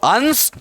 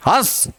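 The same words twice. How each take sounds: First: हंस with a full nasal consonant n before the s; anusvara pronunciation. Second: हंस with only a nasalised vowel, no separate n; chandrabindu pronunciation. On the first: Teacher contrasting two words for students, हंस with full anusvara. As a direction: sound a clear n in हंस. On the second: Teacher contrasting two words for students, हंस with nasalised vowel. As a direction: let the vowel of हंस go through the nose, short. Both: Shown as a demonstration. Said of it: "उच्चारण भी अलग".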